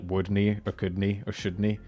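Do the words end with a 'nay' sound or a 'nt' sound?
nay. The words end with a Scottish 'nay' sound. "we replace nt with nay, N A E"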